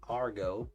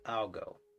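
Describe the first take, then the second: First: The middle consonant is an R sound. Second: The middle consonant is an L sound. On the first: The speaker calls it wrong. "Not argo" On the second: The speaker calls it right. "but algo"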